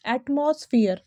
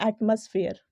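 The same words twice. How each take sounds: First: एटमॉस्फेयर with a full "moss" in the middle; wrong pronunciation. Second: एटमॉस्फेयर with a short, reduced "muss"; correct pronunciation. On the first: Teacher showing students the mistake, wrong pronunciation. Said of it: "जो कि बिल्कुल गलत है". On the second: Teacher correcting the common mistake, correct pronunciation. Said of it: "इसका correct pronunciation होगा". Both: Shown as a demonstration.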